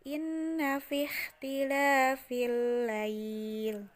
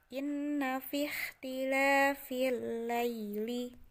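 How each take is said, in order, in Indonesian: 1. Frasa itu berakhir dengan bunyi l tanpa vokal. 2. Frasa itu berakhir dengan vokal pendek setelah l. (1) "kalau mewakafkan" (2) "ketika tidak akan mewakafkan"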